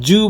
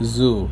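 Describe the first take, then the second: First: The first sound is a hard j-like sound. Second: The first sound is a soft buzzing z. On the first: The speaker calls it wrong. "Zoo বলো না" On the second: The speaker calls it right. "জেড soft করে উচ্চারণ করতে হবে"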